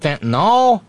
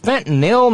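First: The word ends with an 'ol' sound. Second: The word ends with an 'il' sound. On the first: The speaker calls it wrong. "not fentanyl" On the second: The speaker calls it right. "it's fentanyl"

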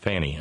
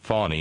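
First: The first vowel sounds like 'a' in 'fan'. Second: The first vowel sounds like 'aw' in 'fawn'. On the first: The speaker calls it wrong. "not Fanny" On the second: The speaker calls it right. "pronounced Fawny"

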